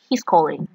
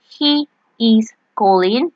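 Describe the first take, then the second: First: He is is contracted into one syllable. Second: He is is said as two full words. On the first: "you say he's calling. So you sound faster" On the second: "instead of saying he is calling"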